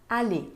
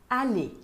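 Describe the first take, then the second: No difference in how they are said.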